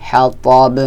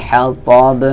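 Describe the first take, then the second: The two takes are said the same way.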